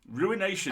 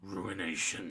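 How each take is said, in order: First: It is said in the speaker's normal voice. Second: It is said in a dramatic put-on voice. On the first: The speaker calls it wrong. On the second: The speaker calls it right.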